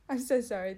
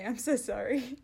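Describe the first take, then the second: First: "I'm so sorry" back in her own voice through a laugh. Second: Light co-host voice saying "I'm so sorry", slightly louder; lingering mock Sam apology "I'm so sorry"; still as Sam. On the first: Real, not acted. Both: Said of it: "That was my impersonation of".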